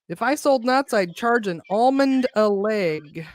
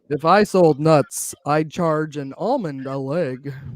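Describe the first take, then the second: First: It is said in a plain, ordinary voice. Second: It is said in a smooth radio-announcer voice.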